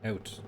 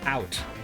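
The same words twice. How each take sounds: First: The vowel starts from a raised 'uh' sound. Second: The vowel starts from an open 'ah' sound. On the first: "Canadian doesn't start at ah, it starts at uh" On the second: "Ah ooh is the American way to say it"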